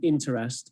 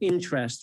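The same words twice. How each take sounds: First: It is said in a careful, overly full way. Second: It is said in a casual, everyday way. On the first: The speaker calls it wrong. "rather than interest" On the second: The speaker calls it right. "the natural pronunciation of interest"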